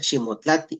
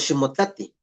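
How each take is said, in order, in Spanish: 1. La vocal a se pronuncia larga. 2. La vocal a se pronuncia corta. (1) "escóndete" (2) "aquí le cortamos, le quitamos una A"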